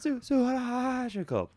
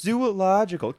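First: "Zoo-, zoological" slow and deliberate, the "zoo" restarted; careful correction. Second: "Zoological" stumbled over, blurted quickly and higher; tripping on "Zoological" with a garbled start; flubbed word. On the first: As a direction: spell out "zoological" syllable by syllable, slowly. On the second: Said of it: "C-, oh, I'm sorry". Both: Shown as a demonstration.

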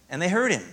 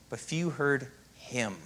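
First: Said in the usual way. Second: "few" slow and leaned on; "but few heard him", weight on "few"; stress on few. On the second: Shown as a demonstration. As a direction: drag out "few" to make the point. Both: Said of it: "If you emphasize it right".

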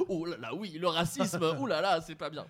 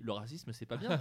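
First: Louder, fussy "oh là là" apology; mock-dramatic, overdone remorse; exaggerated fuss. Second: Said in the usual way. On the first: Shown as a demonstration. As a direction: ham up the shocked fussing. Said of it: "Tu dis pas". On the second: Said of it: "normalement, tu dis".

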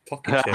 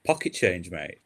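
First: Higher, louder, laughing through it; laughing repeat. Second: Said in the usual way. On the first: Real, not acted.

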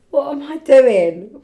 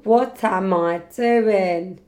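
First: High, loud, slow laughing question. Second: Slow, stretched self-questioning; drawn-out. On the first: Cracking up at own Instagram plug, laughing. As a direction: crack up at yourself, drawing it out. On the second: Repeating the question to herself, slow and drawn-out. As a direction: drag out each word at your usual pitch. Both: Real, not acted.

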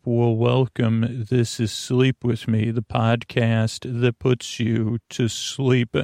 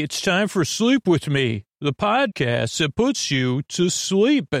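First: Calm welcome. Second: Higher announcer read of the title. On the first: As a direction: ease them into bed. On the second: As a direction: announce the show name. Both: Acted.

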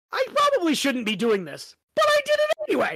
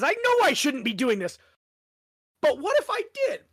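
First: Mock guilty quote rising high and fast at the end; playful Harry impression; quoting Harry. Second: Mischievous question rising very high; cheeky what-if rising up; quoting Harry. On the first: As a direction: toss off the last part in a squeaky rush. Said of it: "I love it how he says". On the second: Retold or imitated. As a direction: tempt yourself, ending in a high squeak. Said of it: "that's kind of who Harry is".

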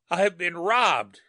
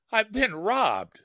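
First: Slow, high, croaking cry; harsh croak. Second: Despairing. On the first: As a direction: croak it out in shock. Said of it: "he croaked harshly". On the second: Repeated in despair. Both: A narrator's reading.

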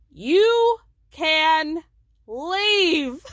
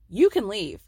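First: Louder, higher, stretched leave; mock shouted leave. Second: Said in the usual way. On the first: Recapper repeating Meredith's order, louder and stretched. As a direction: bellow the leave out.

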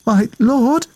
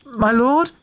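First: Timid, much higher call; quivering voice. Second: Quivering voice. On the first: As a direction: call out nervously in the dark. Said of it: "her voice quivering". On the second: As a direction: try again more timidly. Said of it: "she repeated". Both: A narrator's reading.

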